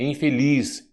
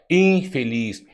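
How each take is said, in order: First: "infeliz" with the weight on final LIZ; correct stress on LIZ. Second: "infeliz" with IN punched and stretched; wrong stress on IN. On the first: Shown as a demonstration. Teaching the stressed syllable, stress on LIZ. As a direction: land on the last syllable, infeLIZ. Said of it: "sílaba tônica". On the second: Retold or imitated. Imitating how some people say it, stress on IN. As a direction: hit and hold the first syllable, INfeliz. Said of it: "tem gente que fala".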